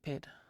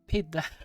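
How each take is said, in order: First: The name is said with an English pronunciation. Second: The name is said with a Norwegian pronunciation. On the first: "if I was English? Probably just pid" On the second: "That's probably the Norwegian in me"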